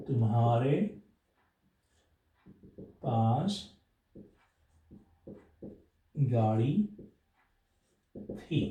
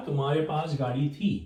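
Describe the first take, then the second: First: Each word spaced out with long pauses; slow word-by-word dictation. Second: Said in the usual way. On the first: Shown as a demonstration. Teacher dictating the Hindi sentence word by word. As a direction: dictate slowly to students, one word at a time. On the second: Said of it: "अब you had a car".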